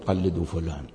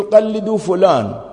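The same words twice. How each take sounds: First: "قلدوا فلان" repeated much lower and softer, in disbelief; incredulous quiet echo. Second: "قلدوا" pitched high and drawn out slowly, like a flat order; a slow, high-pitched imitation of a confident ruling; quoting the experts' verdict. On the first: Retold or imitated. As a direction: echo the phrase under the breath, questioning it. ("قلدوا فلان" بصوت منخفض وخافت باستنكار) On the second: (تقليد ساخر لحكم واثق، "قلدوا" عالية وبطيئة) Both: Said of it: "أنت إيش عليك تقول".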